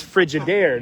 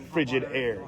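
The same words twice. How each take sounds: First: Frigid air said as fri-GID air, like refrigerator; pun stress on frigid. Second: Frigid air with the stress on FRI, slower and softer; ordinary FRI-gid air, eased off; usual stress on frigid. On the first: Explaining his frigid air pun to viewers, shifted stress. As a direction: push the second syllable of frigid. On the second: Correcting the pun for viewers, slower and softer. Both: Shown as a demonstration. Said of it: "the emphasis is on the wrong syllables".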